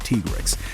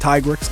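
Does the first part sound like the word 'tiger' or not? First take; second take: not tiger; like tiger. First: The first part does not sound like 'tiger'. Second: The first part sounds like the word 'tiger'. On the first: The speaker calls it right. "It's actually Tigrex" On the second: The speaker calls it wrong. "I prefer saying Tigrex because, you know, Tiger T-Rex"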